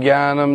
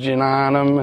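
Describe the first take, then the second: First: The word is pronounced loosely and imprecisely. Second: The word is pronounced with careful, exact sounds. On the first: The speaker calls it wrong. "They weren't saying Jnanam" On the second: The speaker calls it right. "they were saying Jnanam ... perfect pronunciation"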